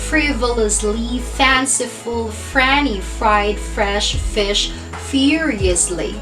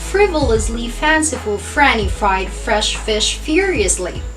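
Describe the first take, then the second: First: The phrase is said at a slower pace. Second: The phrase is said at a faster pace.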